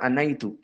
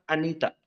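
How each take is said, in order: First: The middle syllable is a gliding 'nai' sound. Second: The middle syllable is a plain 'ni' sound. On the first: The speaker calls it right. "Maka yang benar anaitu" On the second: The speaker calls it wrong. "Sebagian Indonesia mengatakan anita"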